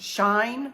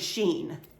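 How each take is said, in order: First: It is one syllable rhyming with fine. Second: It is one syllable rhyming with seen. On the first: "it actually says that it's pronounced Shine with Google" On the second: "it's definitely not apparently Sheen"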